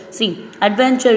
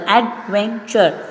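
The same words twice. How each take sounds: First: Said in the usual way. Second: "adventure" を音節ごとにゆっくり区切る; slow syllable by syllable. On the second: Shown as a demonstration. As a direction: break "adventure" into three slow beats. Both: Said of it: "we have three syllable".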